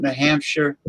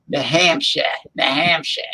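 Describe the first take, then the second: First: Said in the usual way. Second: "New Hampshire" ending in an open "ah"; New England "New Hampshire" with no R; dropped final R. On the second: Shown as a demonstration. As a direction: say "New Hampshire" as Hamp-shah. Repeats name in regional accent.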